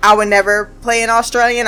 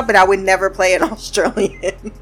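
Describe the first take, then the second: First: Said in the usual way. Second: Repeating it while cracking up; laughing through it. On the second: Retold or imitated. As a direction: quote broken by a laugh on Australian. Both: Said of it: "And he's like".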